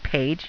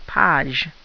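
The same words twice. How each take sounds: First: It is pronounced like the English word page. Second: It is pronounced like the French word page. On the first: The speaker calls it wrong. "You're not saying page" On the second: The speaker calls it right. "you're saying page"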